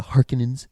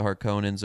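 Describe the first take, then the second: First: Harkonnens stressed up front, middle vowel reduced; current pronunciation. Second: Harkonnens with a long O in the middle; older pronunciation. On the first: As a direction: say Harkonnens as HAR-kuh-nenz. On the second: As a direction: say Harkonnens as har-KOH-nenz. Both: Shown as a demonstration. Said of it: "or as they say now".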